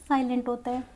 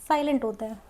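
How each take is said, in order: The two takes are said the same way.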